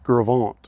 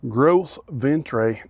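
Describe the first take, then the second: First: The name is said in a French-style way. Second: The name is said in an exaggerated redneck way. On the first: It is the proper way to say the name. The speaker calls it right. "It's French. I believe Gravant is the proper pronunciation" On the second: It is said jokingly, as a rustic local would. The speaker calls it wrong. "I was trying to say that all redneck"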